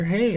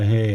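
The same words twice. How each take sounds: First: The greeting sounds warm and enthusiastic. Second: The greeting sounds flat and unenthusiastic. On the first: The speaker is glad to see a close partner. The speaker calls it right. "you can have enthusiasm when you see each other" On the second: The speaker greets without real feeling. The speaker calls it wrong. "rather than just like, yeah"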